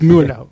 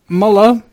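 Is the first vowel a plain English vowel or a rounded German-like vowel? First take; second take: rounded German-like; plain English. First: The name has a muffled, rounded German-like vowel. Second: The name is read with a plain English vowel. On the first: The speaker calls it right. "Kind of like you know how you're trying to get peanut butter off of the roof of your mouth" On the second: The speaker calls it wrong. "That's the spelling pronunciation"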